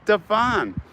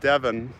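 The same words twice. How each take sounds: First: The name is said with an American pronunciation. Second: The name is said with an English pronunciation. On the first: This is how it is said in America. "but we pronounce it Devon" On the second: This is how it is said in England. "where in England it's pronounced Devon"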